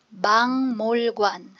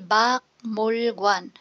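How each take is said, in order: First: The first syllable ends with an ng sound. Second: The first syllable ends with a k sound. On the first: The speaker calls it right. "ang tamang pronunciation" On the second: The speaker calls it wrong. "'Pag binasa mo siya ng per syllable"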